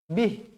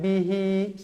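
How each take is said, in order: First: The word stops on the final consonant. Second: The word ends with an extra vowel. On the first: The speaker calls it right. "berhenti dengan bacaan bih" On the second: The speaker calls it wrong. "Jangan bihi, salah"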